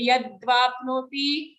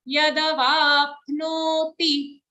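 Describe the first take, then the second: First: Yadvapnoti with a half d run into v; wrong yadvapnoti. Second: Yadavapnoti slow, full da before va. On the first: Teacher showing the wrong yadvapnoti, half d. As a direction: swallow the d of yadvapnoti. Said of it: "don't say yadvapnoti". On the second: Teacher modelling Yadavapnoti, full da. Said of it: "But here it's a full the". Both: Shown as a demonstration.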